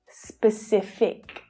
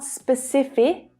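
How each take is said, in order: First: The final consonant sound is clearly finished. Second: The final consonant sound is left off. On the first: The speaker calls it right. "it's specific" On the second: The speaker calls it wrong. "Don't get lazy and forget it. It's not specific"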